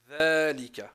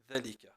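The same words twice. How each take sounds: First: The first vowel is drawn out long. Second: The first vowel is cut short. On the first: The speaker calls it right. "Il faut bien le prononcer" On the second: The speaker calls it wrong. "Pas dire ذلك"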